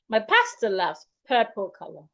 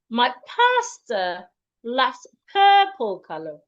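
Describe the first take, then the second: First: It is spoken at a faster pace. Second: It is spoken at a slower pace.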